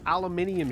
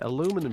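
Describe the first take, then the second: First: The word is said the non-American way. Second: The word is said the American way. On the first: "I can't even say it incorrectly" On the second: "They'd probably be like, ... That's it, aluminum shield"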